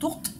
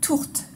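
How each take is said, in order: First: The t is said without a puff of air. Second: The t is said with a puff of air. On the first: The speaker calls it wrong. "si vous dites tourte, ... ils vont pas comprendre" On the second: The speaker calls it right. "c'est important de le prononcer correctement"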